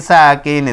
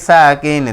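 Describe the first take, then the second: No difference in how they are said.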